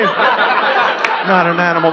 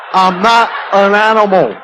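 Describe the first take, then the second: First: Slow, drawn-out sneer on Not an animal; scornful mocking repeat. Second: Lightly voiced pleading, stress on not; a hint of the Elephant Man insisting; mock Elephant Man plea. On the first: Comedian mocking the Elephant Man's line, slow sneer. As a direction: drag the words out to ridicule him. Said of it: "mocking repeat". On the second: Watching the Elephant Man on TV, lightly mocking plea.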